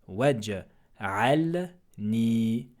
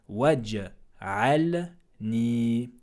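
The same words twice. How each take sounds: No difference in how they are said.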